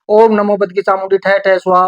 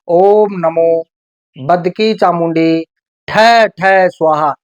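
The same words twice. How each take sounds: First: It is said fast and hurried. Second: It is said slowly and calmly.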